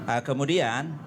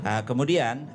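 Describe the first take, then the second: The two takes are said the same way.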